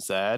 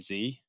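First: The letter is said as zed, British style. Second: The letter is said as zee, American style.

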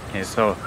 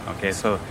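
Both takes have the same delivery.

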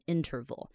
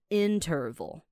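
First: The word is said quickly and smoothly. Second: The word is said slowly and carefully. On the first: "你就要把它念快一点，念成interval" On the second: "它的重音是比较在前面的interval"

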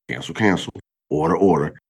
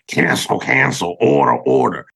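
First: It is said calmly, like a gentle reminder. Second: It is said forcefully, like fighting the thought.

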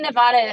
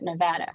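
First: Pronounced the way Easterners say the state name. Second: Pronounced the way local Westerners say the state name. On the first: The speaker comes from back east. The speaker calls it wrong. "It's only Nevada if you're from back east" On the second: The speaker is a local. The speaker calls it right. "If you come out here, you got to say it Nevada"

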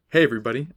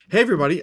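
First: The voice is pitched lower, more naturally. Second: The voice is pitched too high. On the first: The speaker calls it right. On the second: The speaker calls it wrong.

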